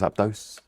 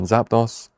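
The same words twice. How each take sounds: First: The last syllable rhymes with 'dose'. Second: The last syllable rhymes with 'boss'.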